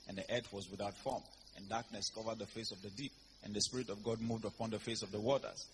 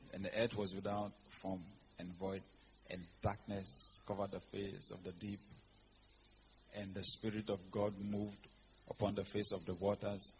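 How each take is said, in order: First: It is read at normal speed. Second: It is read slowly.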